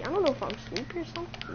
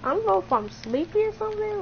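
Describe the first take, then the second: First: Soft, quick mumble; sleepy mumble. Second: Higher, quick repeat; playful self-mimicry. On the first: Real, not acted. Player telling friend he may be sleepy, quiet mumble. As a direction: rush it out under your breath. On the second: Player echoing own sleepy line to friend, higher playful replay. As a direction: lift the pitch and rattle it off.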